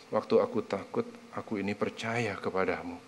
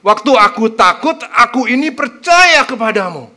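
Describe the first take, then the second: First: Soft, quiet read of the verse. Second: Louder, earnest proclamation of the verse; heartfelt declaration. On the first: Preacher softly reading the verse to the congregation, quiet. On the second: Preacher proclaiming the verse aloud to show its power, earnest and loud. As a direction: declare it with full conviction. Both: Shown as a demonstration. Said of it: "Coba lihat, keren nggak?".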